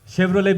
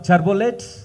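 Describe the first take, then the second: First: It is said with standard English pronunciation. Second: It is said with a mother-tongue accent.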